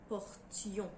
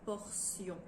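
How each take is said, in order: First: The middle consonant is a clear t sound. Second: The middle consonant is an s sound. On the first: It is a verb form. "Nous gardons la prononciation du T comme pour le verbe porter" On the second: It is a noun. "est souvent prononcé sillon"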